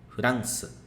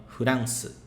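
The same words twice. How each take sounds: No difference in how they are said.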